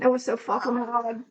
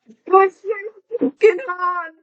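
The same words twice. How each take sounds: First: Said in the usual way. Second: High, loud put-on English accent. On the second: Shown as a demonstration. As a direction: exclaim it in a hammed-up English accent. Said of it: "talking in an English accent".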